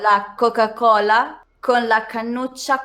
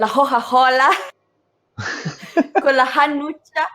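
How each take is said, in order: First: The c sounds are pronounced as hard stops. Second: The c sounds are softened or dropped entirely. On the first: "in true correct Italian" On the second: "in the way in Tuscany say it... don't pronounce the C"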